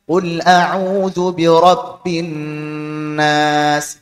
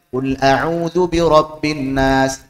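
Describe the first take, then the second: First: The nasal hum on the n is held long. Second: The nasal hum on the n is cut short. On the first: The speaker calls it right. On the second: The speaker calls it wrong. "Dia cuma baca"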